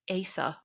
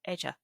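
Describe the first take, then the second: First: The middle consonant is a soft 'th' sound. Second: The middle consonant sounds like 'dj'. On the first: "in Welsh that would be something like Aether" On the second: "In Gaelic it would be Edja"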